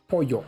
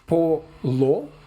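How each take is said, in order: First: The double L sounds like a Y. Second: The double L sounds like an L. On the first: The speaker calls it right. "It's pollo" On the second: The speaker calls it wrong. "It's not pronounced polo"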